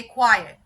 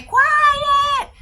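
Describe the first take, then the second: First: Calm command. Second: Very high, loud screamed command; crazy-person shout. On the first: Trainer showing owners the right way to say quiet, calm. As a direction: give the command evenly, without shouting. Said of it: "say quiet in a calm voice". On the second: Trainer mimicking a frantic dog owner, crazed shout. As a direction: yell it wildly, stretched out. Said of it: "like a crazy person". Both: Shown as a demonstration.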